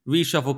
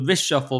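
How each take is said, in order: First: The first syllable sounds like 'ree'. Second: The first syllable sounds like 'rish'. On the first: It is the ordinary word for a cabinet change. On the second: It puns on the prime minister's name.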